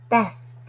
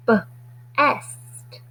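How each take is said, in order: First: Said in the usual way. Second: B-est split into b and est; sounded out. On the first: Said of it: "blended word after segmenting". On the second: Shown as a demonstration. Teacher segmenting B-est for the class, sounded out. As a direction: stretch B-est into its parts, onset then rime. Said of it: "segmenting word into sounds".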